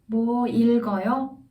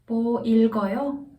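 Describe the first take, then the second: First: The stress falls on the verb. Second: The stress falls on the verb.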